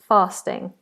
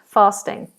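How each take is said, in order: Both takes have the same delivery.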